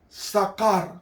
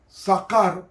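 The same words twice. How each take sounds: First: The middle consonant is a hard k sound. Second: The same.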